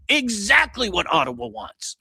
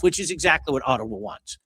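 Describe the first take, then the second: First: EXACTLY pitched high and stretched out; high, incredulous stress on Exactly; emphatic repeat. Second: Said in the usual way. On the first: Real, not acted. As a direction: hammer "Exactly" in exasperation.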